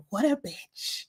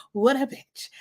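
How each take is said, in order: First: Softer, muttered aside imitation; hushed retold jibe; imitated whisper. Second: Lightly imitated accent; a touch of a borrowed accent; David's accent. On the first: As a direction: mimic a sneaky aside, softly. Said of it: "David whispers". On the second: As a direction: mimic his accent on the jibe. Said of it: "in his accent".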